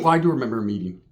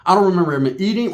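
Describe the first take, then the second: First: "do" stressed as a correction. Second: Said in the usual way. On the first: Real, not acted. Taking back what he just said, weight on "do". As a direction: correct yourself by leaning on "do".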